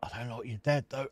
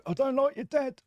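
First: Said in the usual way. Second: Much higher, louder jokey repeat; a hammed-up, high-pitched repeat; high mock squeal. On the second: Mock repeat to game character.

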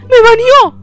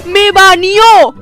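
First: Higher, sudden cry of disbelief; shocked outburst. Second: Very slow, stretched-out wail of disbelief; drawn-out dismay. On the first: Baby player just banned by the lady, higher shocked cry. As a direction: blurt it out, caught off guard. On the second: Baby player lamenting the ban, very slow stretched wail. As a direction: drag every syllable out in dismay. Banned from the house in game. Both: Real, not acted.

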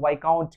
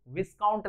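First: वाइकाउंट with silent s, "vai-count"; correct pronunciation. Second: विस्काउंट with the s sounded, "vis-count"; wrong pronunciation. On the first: Teacher gives students the proper reading, pronounced with a silent s. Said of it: "इसे हम लोग वाइकाउंट कहते हैं". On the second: Teacher warns students off the wrong reading, mispronounced with a sounded s. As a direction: read विस्काउंट as spelt, voicing the s. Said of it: "नहीं पढ़ेंगे". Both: Shown as a demonstration.

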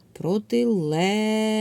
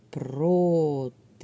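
First: Протилежний called out loud and high with a long stressed ЛЕ; calling the word out. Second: Протилежний very slowly, syllable by syllable: про-ти-леж-ний; split into syllables. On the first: Teacher calls out the word to find its stress, calling out. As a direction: stretch the stressed Е in Протилежний as if hailing someone. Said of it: "треба слово погукати". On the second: Teacher divides the word into syllables for pupils, syllable by syllable. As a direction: draw out each syllable of Протилежний separately. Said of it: "Ділимо слово на склади".

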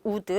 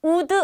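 First: Would said as one short syllable with a soft final d; would correctly clipped; right pronunciation. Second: Would said wrongly as "우드" with an extra vowel; would mispronounced as two syllables; wrong pronunciation. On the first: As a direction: say would tight, no extra vowel. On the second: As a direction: say would with a final 드 syllable added. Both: Shown as a demonstration. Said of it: "would 아니에요".

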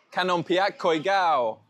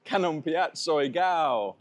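First: "Koi Gao" with a K sound opening "Koi", loud and slow; mispronounced name. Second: "Soy Gao" with an S sound opening "Soy", slow and high; corrected name. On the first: Visitor trying a bakery's name, "Koi Gao" said loudly with a K. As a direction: call out "Kanompiak Koi Gao" high and drawn out, with "Koi" for Soy. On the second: Visitor repeating the corrected bakery name, "Soy Gao" slowly with an S. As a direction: draw out "Kanompiak Soy Gao" after a laugh, S on "Soy". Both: Real, not acted.

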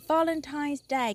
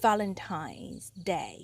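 First: Said in the usual way. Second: "Valentine's Day" very slow and lower, teeth on the lip for the V; slow lower teacher model of "Valentine's Day" with the V sound; careful V in Valentine's. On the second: Shown as a demonstration. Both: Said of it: "The ตัว V เนาะ ตัว V".

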